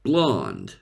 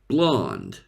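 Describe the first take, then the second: First: It is said in an American English accent. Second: The same.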